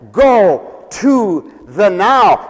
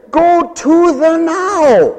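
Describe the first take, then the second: First: Slow, weighty quote; quoting apostle. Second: Higher, slow, mocking "Go to the now"; sarcastic. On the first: Retold or imitated. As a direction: read the apostle's words slowly. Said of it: "And the apostle says". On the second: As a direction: drag it out with scorn. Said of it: "sarcasm in his voice".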